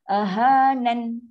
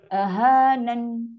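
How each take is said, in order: Both takes have the same delivery.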